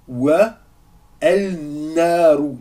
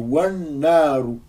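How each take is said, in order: First: The article is said separately with its l. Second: The article merges into the next sound, doubled. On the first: The speaker calls it wrong. "Non, c'est complètement faux" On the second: The speaker calls it right. "C'est wan naru"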